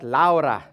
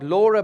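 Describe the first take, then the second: First: The name is said with Dutch vowel sounds. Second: The name is said with English vowel sounds. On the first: The speaker calls it right. "a Dutch lady, so I'm going to try and pronounce it" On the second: The speaker calls it wrong. "Not Laura"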